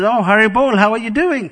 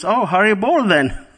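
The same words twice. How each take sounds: First: Much higher and louder, hammed-up happy mother; repeated cheerful greeting. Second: A light, bright mother's greeting, higher pitched; cheerful greeting. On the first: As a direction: call it out again, big and delighted. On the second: Retold or imitated. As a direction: greet your son gladly, a little higher. Mother greets monk son cheerfully.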